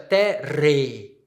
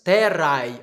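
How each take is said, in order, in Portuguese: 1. A palavra termina com uma vogal 'e' simples. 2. A palavra termina com um ditongo 'ai'. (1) "ou na pronúncia eclesiástica" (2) "na pronúncia reconstituída"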